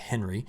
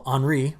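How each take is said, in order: First: It is said like the English name Henry. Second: It is not said like the English name Henry. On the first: The speaker calls it wrong. "I mispronounced that on Monday, calling it Henry" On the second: The speaker calls it right. "I got it wrong"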